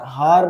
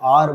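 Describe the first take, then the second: First: The word starts with an h sound. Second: The word starts with a vowel sound. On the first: The speaker calls it wrong. "हार नहीं" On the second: The speaker calls it right. "आर बोलते हैं इसको"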